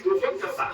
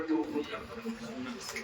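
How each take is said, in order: First: Much higher, voiceless, breathy repeat; high breathy echo. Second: Slow and much softer, stretching each word; drawn-out hush. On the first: Preacher echoing his point to the crowd, high and breathy. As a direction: fling it up high in a breathy rush. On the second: Preacher softly drawing out the point to the congregation, slow and hushed. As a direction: let it sink in quietly, very slowly. Preacher repeating phrase for effect. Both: Real, not acted.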